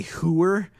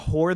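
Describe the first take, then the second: First: "hooer" stretched into two syllables, hoo-er; Sopranos pronunciation. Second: Said in the usual way. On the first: Shown as a demonstration. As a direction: draw out "hooer" with a long oo. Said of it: "they say hooer".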